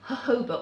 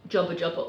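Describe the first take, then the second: First: The word is said as a smooth 'jojoba'. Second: The word is said as a doubled 'jobba jobba'. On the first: This is the accepted way to say it. "which I'm told is how you're supposed to pronounce it" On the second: This is how the written word looks when misread. "that's what my dyslexic brain says when I see the word"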